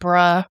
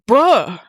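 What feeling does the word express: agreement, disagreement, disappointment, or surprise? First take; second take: agreement; surprise. First: It is said in an agreeing tone. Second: It is said in a surprised tone. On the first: The speaker agrees. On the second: The speaker did not expect this.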